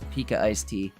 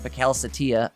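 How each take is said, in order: First: The name is split into three words. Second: The name is run together as one word. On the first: The speaker calls it right. "this is Pika Ice Tea" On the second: The speaker calls it wrong. "as I was pronouncing it wrong last week"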